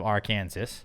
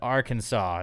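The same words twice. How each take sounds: First: The word ends with a 'zas' sound. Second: The word ends with a 'saw' sound. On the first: This would match how Kansas is said. "instead of Arkansas" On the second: This is how the name is actually said. "like we say Kansas, but Arkansas"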